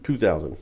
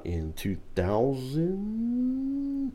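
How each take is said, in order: First: Two thousand. falling firmly, stress on Two; confident falling answer. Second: Two thousand? rising up, slow and unsure; unsure rising question. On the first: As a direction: confirm Two thousand. with a flat, sure fall. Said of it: "came out in two thousand?". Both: Real, not acted.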